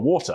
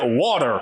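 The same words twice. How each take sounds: First: It is said in a British accent. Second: It is said in an American accent. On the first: The server did not understand the request. The speaker calls it wrong. "I made the mistake of asking" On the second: The server understood the request. The speaker calls it right. "until you say water"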